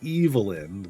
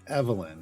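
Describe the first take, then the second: First: The name begins with the sound of 'evil'. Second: The name begins without the sound of 'evil'. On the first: It names the good version of the character. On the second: It names the bad version of the character.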